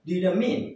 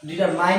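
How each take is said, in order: First: The last syllable sounds like 'min'. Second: The last syllable sounds like 'mine'. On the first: The speaker calls it right. "এর উচ্চারণ হবে ডিটারমিন" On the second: The speaker calls it wrong. "ডিটারমাইন না"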